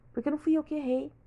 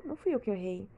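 First: "fui" pushed up high, quicker line; stress on fui. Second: Said in the usual way. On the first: Real, not acted. Venting to viewers, hitting "fui" hard. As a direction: lean hard into "fui", not me who erred. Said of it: "emphatic repeat". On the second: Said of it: "quiet repeat".

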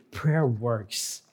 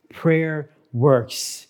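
First: Hushed emphasis. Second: Said in the usual way. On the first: Shown as a demonstration. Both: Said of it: "listen very clearly".

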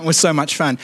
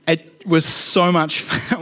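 First: Said in the usual way. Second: Laughing. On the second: Real, not acted.

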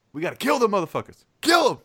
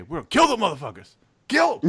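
First: Fast, rising to a full shout on kill 'em; rally the troops for battle; war cry. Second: Rising into a full battle cry; pep talk yell. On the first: Quoting the stock exchange pep talk, fast escalating war shout. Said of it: "Like he's going to war". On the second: Hyping his team before the stock exchange, escalating shout. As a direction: fire up the troops like going to war. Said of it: "the pep talk". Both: Retold or imitated.

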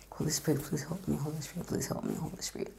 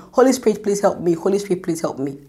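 First: Whispered, much softer prayer; under my breath. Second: Said in the usual way. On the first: Shown as a demonstration. In front of the interviewer, praying under her breath in a whisper. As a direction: breathe the plea almost silently. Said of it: "I'll begin to say under my breath". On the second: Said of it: "I literally will be saying it".

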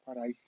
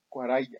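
First: "Cuarajía" with a j and stressed í; "Cuarajía", said kwa-ra-HI-a; corrected pronunciation. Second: "Cuaraya" with a y sound, no j; "Cuaraya", pronounced kwa-RA-ya; said the wrong way. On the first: ("Cuarajía" con jota y acento en la í) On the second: ("Cuaraya" pronunciado con y, sin jota) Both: Shown as a demonstration.

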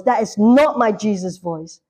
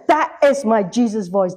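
First: "not" hit hard in rejection; stress on "not". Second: "is" leaned on in affirmation; stress on "is". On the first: Believer rejecting a false voice, stress on "not". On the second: Believer recognising Jesus' voice, stress on "is". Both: Acted.

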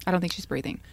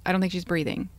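First: Calm, flat retelling of the husband; husband's flat calm on the 911 call; flat, even keel. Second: Level, unbothered report; husband calmly telling the 911 operator; flat, even keel. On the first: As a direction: say it like it means nothing. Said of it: "That's how he said it". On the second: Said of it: "he's very even keel". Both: Retold or imitated.

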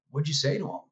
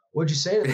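First: A mildly amazed ask, pitch lifted; surprised question. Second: Higher, louder amazed ask; astonished repeat. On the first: Coworkers stunned he got through, mild amazed ask. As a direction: retell coworkers' disbelief, lightly raised. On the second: Coworkers repeat it, louder and higher in astonishment. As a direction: push the disbelief harder the second time. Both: Retold or imitated. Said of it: "jaws dropped".

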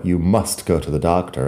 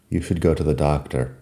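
First: "must" said firmly, like an order; firmer must. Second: Said in the usual way. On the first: Shown as a demonstration. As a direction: push "must" as if sending them to the doctor. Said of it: "pero suena más fuerte". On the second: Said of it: "Should es una recomendación un poco más, ah, ligera".

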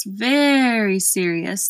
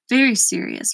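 First: Slow, long-stretched "very"; drawn-out grave verdict. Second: "Very serious" at ordinary pace, grave; grave verdict. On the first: Gateman shaking his head at Milo, slow grave repeat. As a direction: drag out "very" for grave weight. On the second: Gateman judging Milo's lack of reason, plain grave verdict. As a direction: say "Very serious" gravely without stretching it. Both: A narrator's reading.

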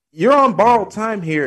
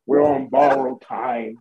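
First: High, loud and grave, like a prophecy; dramatic declaration. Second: Mock solemn quote. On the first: Acted. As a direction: announce doom with big drama. Dramatic repeat of the quote. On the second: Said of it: "like he was lowering a casket".

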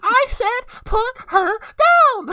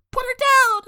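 First: Much higher, louder, very slow yelled order; slow hammed-up "put her down!" with every word dragged; drawn-out shout. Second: Much higher, louder commanding yell; quick hammed-up "Put her down!" yell; mock shout. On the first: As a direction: stretch it into a furious roar. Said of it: "And Ryan's like". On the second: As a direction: yell it like a kid hero. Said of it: "then Ryan's like".

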